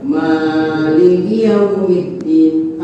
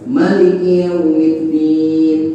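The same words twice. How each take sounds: First: The vowel after the first m is long. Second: The vowel after the first m is short. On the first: This follows the Hafs reading. "Kalau imam hafaz itu mimnya panjang" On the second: This follows the Warsh reading. "Kalau imam waros pendek"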